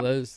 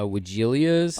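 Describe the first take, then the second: First: The name is said in a shorter, standard form. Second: The name is said in a longer, variant form. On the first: This is the normal pronunciation. "the pronunciation normally" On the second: This is what some people call the plant. "some people call them uh"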